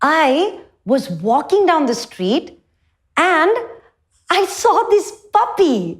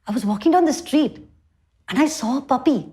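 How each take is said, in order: First: It is said lively, with animated expression. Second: It is said warmly, with a smile.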